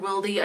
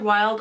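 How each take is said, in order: First: The name ends with an added ee syllable. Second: The name is said as one syllable. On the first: "It's either Wild or Wildy" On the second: "It's either Wild or Wildy"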